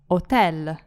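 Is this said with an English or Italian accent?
Italian. It has an Italian front L at the end.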